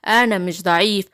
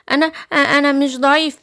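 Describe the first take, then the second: First: Low-pitched wolf retort; low, indignant storybook wolf; offended wicked wolf. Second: Stammering cub's denial; nervous little lion. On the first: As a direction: deny it as the big bad wolf, pitched low. Wolf answers Simba's taunt. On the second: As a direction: stumble on the first word, then protest as the cub. Little lion stammers back at wolf. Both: Acted.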